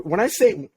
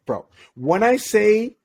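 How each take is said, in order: First: Said in the usual way. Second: Slow, stretched out with a rising end; drawn-out emphasis. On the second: Retold or imitated. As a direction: lean on it, pulling it out to stress how extreme it was. Emphatic repeat of the phrase.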